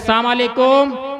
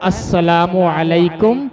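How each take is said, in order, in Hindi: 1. अभिवादन लड़खड़ाकर बोला जाता है, शुरू के अक्षर छूट जाते हैं। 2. अभिवादन का हर अक्षर पूरा बोला जाता है। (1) "सामालेकुम का मतलब है तुम पर लानत हो" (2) "बल्कि सलाम क्या होता है"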